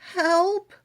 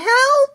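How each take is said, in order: First: It is said quietly. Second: It is said loudly.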